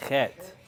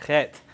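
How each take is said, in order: First: Said in the usual way. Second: Chet with a rasped throaty ch like Bach; guttural ch sound. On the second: Shown as a demonstration. Teacher showing the class a guttural ch, scraped in the throat. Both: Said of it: "So let's try that".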